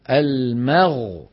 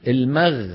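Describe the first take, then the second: First: "المغ" slow, thin ميم moving into a heavy, full غين; correct reading. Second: "المغ" with the غين made thin and light; wrong reading. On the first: Teacher shows students the correct pronunciation. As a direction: drag "المغ" out slowly and make the غين heavy. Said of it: "ننتقل من ميم مرققة إلى غين مفخمة". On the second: Teacher shows students the wrong pronunciation. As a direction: say "المغ" as the mistaken thin version. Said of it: "ما يصح". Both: Shown as a demonstration.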